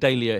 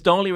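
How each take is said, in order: First: The word has the British pronunciation. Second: The word has the American pronunciation. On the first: "Dahlia here" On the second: "Dahlia in America"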